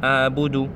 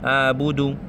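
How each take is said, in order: Both takes have the same delivery.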